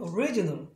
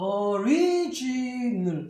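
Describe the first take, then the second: First: The word is said at a faster pace. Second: The word is said at a slower pace.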